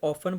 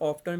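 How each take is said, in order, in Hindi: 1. t की आवाज़ silent है। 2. t की आवाज़ बोली जाती है। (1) "टी बाज़ जगह पे साइलेंट रह जाता है" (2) "बाज़ लोग जो है ना वो इसको बोल जाते हैं"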